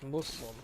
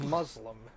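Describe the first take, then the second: First: The middle consonant sounds like an s. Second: The middle consonant sounds like a z. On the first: The speaker calls it right. "it's with the S sounding like an S and not a Z" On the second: The speaker calls it wrong.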